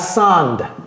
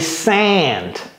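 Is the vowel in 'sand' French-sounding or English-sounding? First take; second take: French-sounding; English-sounding. First: The vowel sounds French. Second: The vowel sounds English. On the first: The speaker calls it wrong. "c'est pas sand" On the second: The speaker calls it right. "C'est sand"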